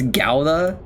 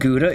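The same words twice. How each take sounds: First: Gouda is said the Dutch way. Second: Gouda is said the usual English way. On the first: The speaker calls it right. "it's Gouda" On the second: The speaker calls it wrong. "it wasn't pronounced Gouda"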